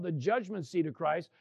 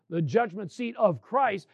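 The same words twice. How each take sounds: First: Said in the usual way. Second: "of Christ" slowed, with weight on Christ; stress on Christ. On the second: Real, not acted. Preacher underlining whose judgment seat it is, stress on Christ. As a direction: lean deliberately on the word Christ.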